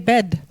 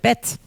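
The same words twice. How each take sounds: First: The final consonant is voiced, like a D. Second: The final consonant is voiceless, like a T. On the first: The speaker calls it wrong. "we don't say bed" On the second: The speaker calls it right. "but bed"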